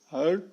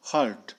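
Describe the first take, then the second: First: हर्ट with no R, short; British R-less हर्ट. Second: हर्ट with a clear R before the t; American R in हर्ट. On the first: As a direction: drop the R in हर्ट. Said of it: "British वाले आर का pronunciation नहीं करते". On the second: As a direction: sound the R in हर्ट. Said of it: "American करते हैं". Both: Shown as a demonstration.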